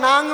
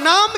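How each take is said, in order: First: The word ends in an 'ng' sound. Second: The word ends in an 'm' sound. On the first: The speaker calls it wrong. "ওটাকে নাং বলে না" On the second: The speaker calls it right. "ওটা নাম কীর্তন"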